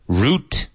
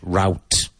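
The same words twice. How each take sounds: First: It is said with a non-American pronunciation. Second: It is said with an American pronunciation.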